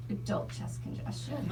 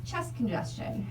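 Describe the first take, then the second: First: "adult chest congestion" breathed out softer, voiceless; hushed. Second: Said in the usual way. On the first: Shown as a demonstration. Reading the adult bottle label aloud, in a hush.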